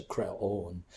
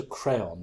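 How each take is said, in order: First: Creon said the Greek way, "kreh-OHN", with a long final vowel; Greek pronunciation. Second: Crayon, said "CRAY-on" like the colouring stick; anglicised Creon. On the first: Adviser explaining what defamiliarized the critics, creon in Greek pronunciation, "kreh-OHN". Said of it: "they weren't used to creon". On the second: Adviser explaining what critics were used to, crayon in English pronunciation, "CRAY-on". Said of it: "they were used to crayon". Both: Shown as a demonstration.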